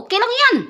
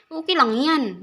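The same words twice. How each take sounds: First: Much higher and louder, playful; high bright okay. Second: Said in the usual way. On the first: Real, not acted. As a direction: toss it up high, teasing. Reassuring an OFW viewer. (masiglang mataas na boses)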